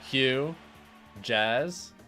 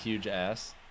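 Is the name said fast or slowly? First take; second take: slowly; fast. First: It is said slowly, as two separate words. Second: It is said fast, running the words together.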